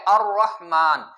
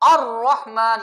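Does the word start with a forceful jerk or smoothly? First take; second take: smoothly; forceful jerk. First: The word starts smoothly without a jerk. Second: The word starts with a forceful jerk. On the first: The speaker calls it right. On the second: The speaker calls it wrong.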